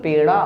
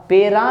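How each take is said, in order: First: पेड़ा with flicked ड़; half-strength ड in पेड़ा; retroflex flap ड़. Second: पेड़ा wrongly said as पेरा, tapped र; plain light र in पेरा; mispronounced with र. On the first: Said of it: "डॉ को आधा करना है". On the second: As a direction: say पेरा without the retroflex flick. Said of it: "पेरा नहीं". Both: Shown as a demonstration.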